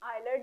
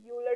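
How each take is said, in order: First: The name begins with an 'eye' sound. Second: The name begins with a 'yoo' sound. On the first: This is the form the class will use. "लेकिन हम बोलेंगे वेन आयलर diagram" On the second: Some other people say it this way. "कुछ लोग इसे यूलर diagram भी बोलते हैं"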